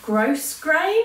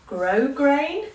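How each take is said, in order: First: The S in the first syllable is pronounced. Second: The S in the first syllable is silent. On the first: The speaker calls it wrong. "I keep calling it gross grain" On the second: The speaker calls it right. "Apparently you're not supposed to pronounce the S"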